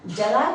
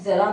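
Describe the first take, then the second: First: जरा with a hard j; wrong j sound. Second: ज़रा with a clear z at the start; correct z sound. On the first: Teacher shows the mistaken form, hard j. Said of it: "जरा नहीं है". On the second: Teacher gives students the right Urdu sound, z. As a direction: say ज़रा with ज़, not j. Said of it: "ज़रा बोलेंगे". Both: Shown as a demonstration.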